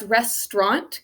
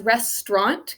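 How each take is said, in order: First: The word is said with two syllables. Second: The word is said with two syllables.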